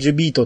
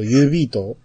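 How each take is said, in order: First: The name begins with a J sound. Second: The name begins with a Y sound. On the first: The speaker calls it wrong. "これ前、ジュビートって呼んじゃったけど" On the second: The speaker calls it right.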